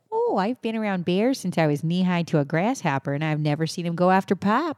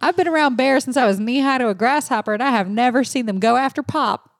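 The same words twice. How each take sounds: First: Polite, put-on Canadian accent. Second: Put-on higher-pitched quote in a Southern accent; put-on Southern twang. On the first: Shown as a demonstration. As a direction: try a courteous rural Canadian accent. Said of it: "say that in a Canadian accent". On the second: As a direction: quote her as a folksy Southerner. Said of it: "I did a Southern accent".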